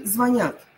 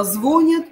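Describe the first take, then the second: First: Звонят stressed on «нят»; звонят, last syllable stressed. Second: Звонят stressed on «зво»; звонят, first syllable stressed. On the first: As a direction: say «званЯт» for звонят. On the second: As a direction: hit a full О in звонят, weak ending. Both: Shown as a demonstration. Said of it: "О или Я".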